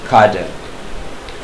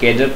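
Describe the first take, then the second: First: The first vowel sounds like 'ah'. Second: The first vowel sounds like 'ay'. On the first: The speaker calls it right. "इसको पढ़ना चाहिए खाडर" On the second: The speaker calls it wrong. "जिसको लोग यहाँ पर केडर पढ़ते हैं जो कि गलत होता है"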